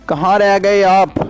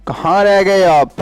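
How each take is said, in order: Both takes have the same delivery.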